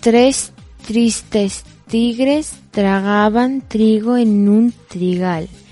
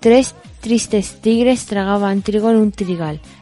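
First: It is said slowly. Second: It is said at normal speed.

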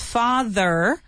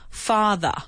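First: It is said in an American accent. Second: It is said in an attempted British accent. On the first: "but in American, it's father" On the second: "British people probably say something like father. All right, I can't do it"

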